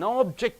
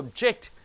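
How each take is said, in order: First: The stress is on the first syllable. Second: The stress is on the second syllable. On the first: It is a noun. "the nouns you are stressing on the first syllable" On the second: It is a verb. "for the verbs you are stressing on the end syllable"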